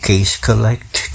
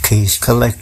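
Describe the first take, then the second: First: Case collect, drawn out slowly word by word; slow mocking drawl. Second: Case collect with the tune rising at the end; questioning repeat. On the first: Mocking youngsters' money hustle, said slowly and drawn out. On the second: Retold or imitated. Echoing the youngsters' slogan back with a questioning rise.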